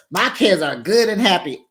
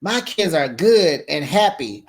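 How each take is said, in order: First: "good" hit higher and louder; emphatic retort. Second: Said in the usual way. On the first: Retold or imitated. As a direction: lean hard on "good". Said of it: "she sure said". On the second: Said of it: "I guess she told me".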